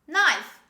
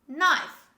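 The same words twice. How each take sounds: No difference in how they are said.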